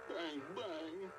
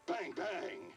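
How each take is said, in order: First: It is said in a sad tone. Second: It is said in an angry tone.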